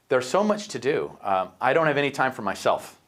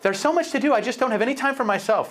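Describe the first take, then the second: First: It is said in his normal voice. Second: It is said in a put-on woman's voice.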